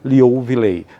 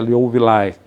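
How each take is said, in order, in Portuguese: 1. O nome é lido com sons portugueses. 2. O nome é lido com sons de estilo latino. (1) "vamos falar do, no português" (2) "eu acho que é Liouvillei, né, que é a pronúncia correta"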